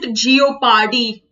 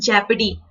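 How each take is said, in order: First: The word begins with a drawn-out 'jee-oh' sound. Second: The word begins with a short 'jep' sound. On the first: The speaker calls it wrong. "some people pronounce it geopardy" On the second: The speaker calls it right. "the correct pronunciation is jeopardy"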